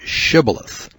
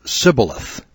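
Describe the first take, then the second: First: "shibboleth" said with a clear sh at the start; correct pronunciation. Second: "sibboleth" said with a plain s where sh belongs; mispronounced. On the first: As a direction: open "shibboleth" on a full sh sound. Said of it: "instead of shibboleth". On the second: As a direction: start "sibboleth" with a hissed s, no sh. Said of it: "they would mistakenly pronounce it sibboleth". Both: Shown as a demonstration.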